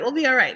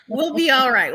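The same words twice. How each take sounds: First: Said in the usual way. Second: Laughing through the words. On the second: Real, not acted. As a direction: say it with a chuckle. Laughing at her own joke.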